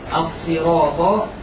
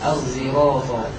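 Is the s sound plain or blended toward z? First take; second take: plain; blended. First: The s sound is said plainly. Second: The s sound is blended toward a z.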